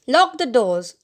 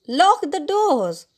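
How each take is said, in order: First: Moderately raised, brisk command; shouted order. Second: High, slow, drawn-out command; insistent shout. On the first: Father to family from the wheel, shouted order. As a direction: call out the order, restrained shout. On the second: Father repeating his order to the family, insistent shout. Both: A narrator's reading. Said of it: "he shouted".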